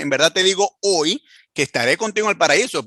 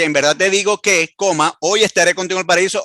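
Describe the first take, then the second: First: The pause comes after the word hoy. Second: The pause comes before the word hoy.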